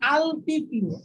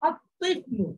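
First: The l is clearly sounded before the t. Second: The l is silent and the t is doubled. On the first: The speaker calls it wrong. "লামটা ধরে পড়েন তাহলে আপনার এই উচ্চারণটা সঠিক হবে না" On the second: The speaker calls it right. "এই লামটা উচ্চারিত হচ্ছে না"

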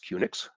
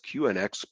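First: It is said as one word rhyming with Unix. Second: It is said without rhyming with Unix. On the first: "like Unix" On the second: "newer guys like me here tend to pronounce it as QNX"

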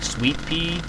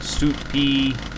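First: The first part sounds like the word sweet. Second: The first part sounds like the word suit. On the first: "I always call it like sweet pea, as in the sweet, and then pea" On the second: "some people pronounce it like suit pea, as in like a suit sort of thing"

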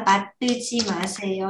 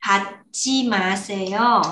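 First: An extra vowel follows the first syllable. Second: The first syllable runs straight into the next. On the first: The speaker calls it wrong. "Chứ không phải là bạc tư chi mà xe yo nha" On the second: The speaker calls it right.

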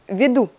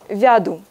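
First: The first vowel sounds like 'e'. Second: The first vowel sounds like 'ya'. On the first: This is the standard form. "в русском... национальном языке здесь веду" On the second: This is the southern dialect form. "вместо я"

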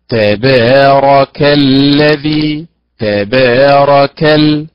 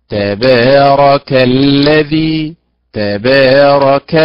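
Both takes have the same delivery.

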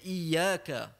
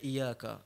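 First: The y sound is doubled and held. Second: The y sound is single and short. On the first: The speaker calls it right. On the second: The speaker calls it wrong. "tak dibaca iyyaka"

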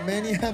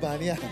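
First: The first vowel is pronounced 'ae'. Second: The first vowel is pronounced 'a'. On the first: The speaker calls it wrong. "매니아 말고" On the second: The speaker calls it right. "마니아가 정확한 제품명입니다"

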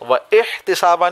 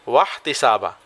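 First: A glottal stop separates wa from the next vowel. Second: Wa runs straight into the next syllable. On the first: The speaker calls it wrong. "व इहतसाबा नहीं" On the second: The speaker calls it right. "इसी तरह इसको हम पढ़ेंगे वहतसाबा"

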